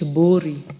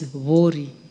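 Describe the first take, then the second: First: The name begins with a b sound. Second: The name begins with a v sound. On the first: The speaker calls it wrong. "Some people would like to call it Bori" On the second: The speaker calls it right. "but it is Vori"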